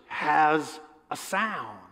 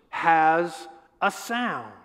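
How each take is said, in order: Both takes have the same delivery.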